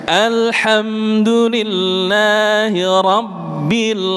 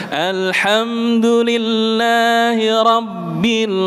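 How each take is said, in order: Both takes have the same delivery.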